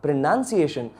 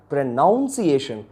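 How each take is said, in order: First: Pronunciation with a NUN syllable, pre-NUN-ciation; pronunciation as "pro-NUN-ciation"; second pronunciation variant. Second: Pronunciation with a NOUN syllable, pre-NOUN-ciation; pronunciation as "pro-NOWN-ciation"; first pronunciation variant. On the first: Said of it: "some people, they pronounce it like". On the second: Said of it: "they pronounce it like pronunciation". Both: Shown as a demonstration.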